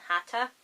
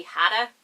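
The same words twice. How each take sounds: First: "Hatta" with a clearly sounded T; "Hatta" pronounced with a distinct T in the middle; crisp T. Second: "Hatta" with the T softened to a D; Northern Irish "Hatta", middle consonant softened; Northern Irish pronunciation. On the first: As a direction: keep the T hard in "Hatta", no D sound. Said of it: "So I'm saying Hatta". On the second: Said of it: "in the Northern Irish accent". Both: Shown as a demonstration.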